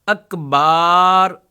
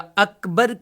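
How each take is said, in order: First: The final vowel is drawn out long. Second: The final vowel is short. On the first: The speaker calls it wrong. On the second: The speaker calls it right.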